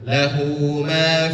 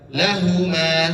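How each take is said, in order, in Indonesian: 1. Vokal pada 'hu' dipanjangkan dua ketukan. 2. Vokal pada 'hu' pendek. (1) "tetapi dua harkat dipanjangkan"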